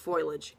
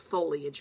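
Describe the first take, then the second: First: The word begins with the sound 'foil'. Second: The word begins with the sounds 'foe-lee'. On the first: The speaker calls it wrong. "I've heard it pronounced foliage" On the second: The speaker calls it right. "It's foliage, people"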